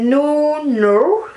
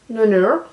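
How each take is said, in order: First: French accent on English. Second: Repeated French-accented English. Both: Real, not acted. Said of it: "moi mon accent pourri".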